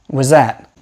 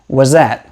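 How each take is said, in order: First: The z sound continues in place of th. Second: The same.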